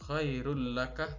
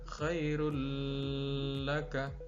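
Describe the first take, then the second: First: The merged sound has no nasal hum. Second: The merged sound has a nasal hum. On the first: The speaker calls it right. "sekali lagi tanpa disertai dengung" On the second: The speaker calls it wrong. "tidak boleh dibaca"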